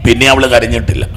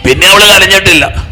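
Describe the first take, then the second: First: Said in the usual way. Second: Higher and louder, stress on അവള്; emphatic repeat. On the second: Acted. Preacher repeating to the congregation, louder and higher. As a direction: hammer it home for the crowd.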